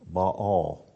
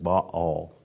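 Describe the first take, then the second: First: The name is said as a single syllable. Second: The name is split into two syllables. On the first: The speaker calls it wrong. "We pronounce it wrong" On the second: The speaker calls it right. "the correct pronunciation is Baal. And that's you can split that word right down between the two A's there"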